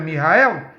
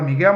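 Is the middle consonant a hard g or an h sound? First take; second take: h sound; hard g. First: The name has an h sound in the middle. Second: The name has a hard g in the middle. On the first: This is the original Hebrew form of the name. The speaker calls it right. "mas é Mihael" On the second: This is the common local form of the name. The speaker calls it wrong. "Você fala Miguel"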